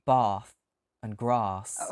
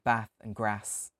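First: It is said in a southern English accent. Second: It is said in a non-southern English accent.

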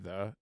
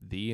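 First: The vowel is a short uh sound. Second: The vowel is a long ee sound. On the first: This is the ordinary way the word is said. "instead of the" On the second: This is how the school's name is actually said. "it's pronounced the"

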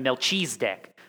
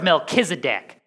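First: The name is said with an altered, food-like pronunciation. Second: The name is said with its standard pronunciation. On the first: The speaker calls it wrong. "as my father-in-law said for years" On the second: The speaker calls it right. "that's how you say it"

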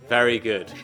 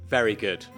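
Both takes have the same delivery.

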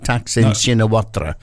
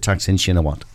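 First: The surname ends with a spoken 'ra' syllable. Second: The surname ends without a spoken 'ra' syllable. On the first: The speaker calls it wrong. "so it looks like Taksin Shinawatra, but it isn't" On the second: The speaker calls it right. "You pronounce it Taksin Shinawat"

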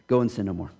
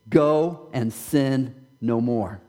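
First: It is said quickly and in a low voice. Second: It is said slowly and with strong emphasis. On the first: The command is treated as an afterthought. The speaker calls it wrong. "we read the last part real quick and real low" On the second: The command carries real weight and expects change. The speaker calls it right. "When I think he said"

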